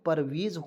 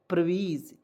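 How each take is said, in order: First: It starts with 'par' and has an 'e' vowel. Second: It starts with 'pra' and has a long 'ee'. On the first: The speaker calls it right. "नहीं परवेज होता है" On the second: The speaker calls it wrong. "अब बहुत लोग क्या पढ़ रहे थे?"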